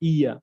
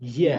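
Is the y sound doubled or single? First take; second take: doubled; single. First: The y sound is doubled and held. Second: The y sound is single and short. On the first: The speaker calls it wrong. "ইয়াটা দুইবার উচ্চারণ হয়ে যাচ্ছে, তাসদিদ হয়ে যাচ্ছে" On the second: The speaker calls it right. "এটা হলো শুধু ইয়া"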